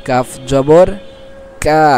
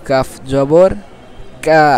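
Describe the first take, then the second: No difference in how they are said.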